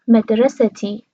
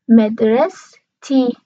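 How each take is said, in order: First: A vowel is heard between the s and t. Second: The s is followed directly by t, no vowel. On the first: "توی لهجه قطری این شکل تلفظ میکنن" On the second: "مدرسه انتهاش ه داره میشه مدرس تی"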